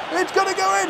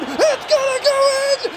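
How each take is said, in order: First: High, eager, building shout; rising excitement. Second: Peak excitement scream. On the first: Gamer watching the shot, rising excited call. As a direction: call it as it flies. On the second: Gamer as the ball hits the net, ecstatic scream. Shot heading for goal. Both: Real, not acted.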